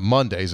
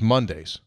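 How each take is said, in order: First: It sounds like the weekday Monday. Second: It sounds like the name Mundy. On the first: The speaker calls it wrong. "it's not Mondays" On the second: The speaker calls it right. "it's Mondays"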